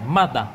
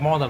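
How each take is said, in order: First: The first vowel is an 'uh' sound. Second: The first vowel is not an 'uh' sound. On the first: The speaker calls it right. "Âm á ở là mother" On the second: The speaker calls it wrong. "đó đọc mother đọc sai"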